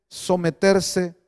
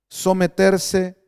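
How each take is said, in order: No difference in how they are said.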